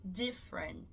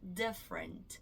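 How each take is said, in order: The two takes are said the same way.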